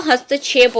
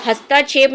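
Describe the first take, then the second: First: हस्तक्षेप said as hast-chhep, st and chh run together; correct form demo. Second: हस्तक्षेप said as hasta-chhep, with an extra a after st; wrong form demo. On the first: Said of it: "हस्तक्षेप होता है". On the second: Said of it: "हस्तक्षेप नहीं होता". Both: Shown as a demonstration.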